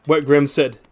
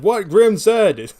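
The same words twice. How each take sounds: First: Said in the usual way. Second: High, loud, drawn-out repeat; mock declaiming. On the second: Repeating Grim's point to chat, mock declaiming. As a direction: stretch it out high and loud, mockingly grand.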